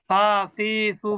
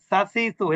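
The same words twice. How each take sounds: First: The vowels are held long. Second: The vowels are kept short. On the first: The speaker calls it wrong. "সা সি সু বললে কিন্তু মাদ হয়ে যায়।" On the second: The speaker calls it right. "এটা কিন্তু মাদ হবে না।"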